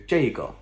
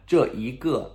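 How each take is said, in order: First: "这个" merged into two syllables, zhei-ge; shortened colloquial form. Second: "这一个" as three separate syllables, zhe-yi-ge; full long form. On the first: Teacher showing how it usually shortens, colloquial form. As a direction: say "这个" as jay-guh. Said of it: "it's usually shortened to". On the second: Teacher showing learners the long version, full form. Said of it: "is a little bit long". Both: Shown as a demonstration.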